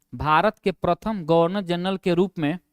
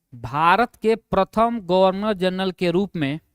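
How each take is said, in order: No difference in how they are said.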